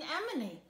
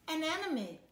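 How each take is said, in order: First: Anemone said right as "a-NEM-o-nee"; carefully fix it: anemone, "a-NEM-o-nee"; corrected word. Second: Anemone said as "enemenee", tongue-tied; mispronounced word. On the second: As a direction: trip over Anemone, saying "a-NAN-e-mee". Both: Acted. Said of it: "I mean, anemone".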